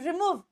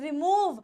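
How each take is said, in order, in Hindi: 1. पहला स्वर लंबा है। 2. पहला स्वर छोटा है। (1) "it is not रिमूव" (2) "word आता है छोटा"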